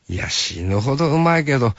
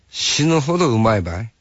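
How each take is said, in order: First: Hakata dialect, falling on うまいけど; easy Hakata answer, tune dropping; 博多弁で落ち着いて返す; Hakata dialect reply. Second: Hakata dialect, rising on うまいばい; light Hakata offer, tune lifting at ばい; 博多弁で軽く誘うように; Hakata dialect question. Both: Retold or imitated. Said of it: "博多弁になる".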